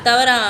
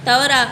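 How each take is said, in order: No difference in how they are said.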